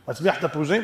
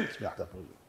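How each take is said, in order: First: "תפוזים" rising as a question. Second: Very soft, low falling "תפוזים"; hushed matter-of-fact confirmation; low answer. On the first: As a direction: ask it, lifting the end of "תפוזים". Question, then murmured answer. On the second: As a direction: answer under your breath, dropping on "תפוזים". Answers own question. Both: Acted.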